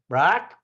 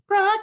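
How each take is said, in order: First: It is said in a normal-pitched voice. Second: It is said in a high-pitched voice. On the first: The speaker calls it wrong. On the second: The speaker calls it right.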